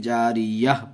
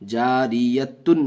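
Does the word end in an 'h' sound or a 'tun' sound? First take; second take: h sound; tun sound. First: The word ends with a silent-ending 'h' sound. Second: The word ends with a full 'tun' sound. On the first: The reader stops on the word. The speaker calls it right. "बल्कि जारियह पढ़ेंगे" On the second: The word is read as if continuing, not pausing. The speaker calls it wrong. "जारियतुन नहीं पढ़ेंगे"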